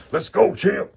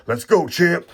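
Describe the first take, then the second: First: Even higher, loud cheer with a rising end; bigger cheer. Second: High, loud cheer for the champ. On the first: Cheering the pulled champ card again, even higher. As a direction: cheer him on like he just won the belt. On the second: Pulling Shannon Briggs, he cheers the champ loudly. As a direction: hype up the card like a fan. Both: Real, not acted.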